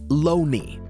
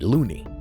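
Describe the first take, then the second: First: The first vowel sounds like the vowel in 'bone'. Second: The first vowel sounds like the vowel in 'moon'. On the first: This is how the man himself wanted it said. "he actually insisted that it was pronounced Loney" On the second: This is how the spelling suggests it is said. "pronounces it just how it looks"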